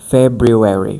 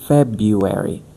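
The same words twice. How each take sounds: First: The first R sound is clearly pronounced. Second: The first R sound is left out. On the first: The speaker calls it wrong. "I used to struggle a lot to say uh, February" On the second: The speaker calls it right. "but it's February"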